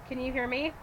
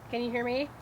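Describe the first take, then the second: No difference in how they are said.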